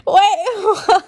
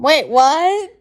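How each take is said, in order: First: Higher, laughing repeat of the question; laughing disbelief. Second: A startled double take. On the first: Reader repeating her shock, laughing in disbelief. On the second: Reader stunned by the condom line, startled. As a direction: stop short, caught off guard. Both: Real, not acted.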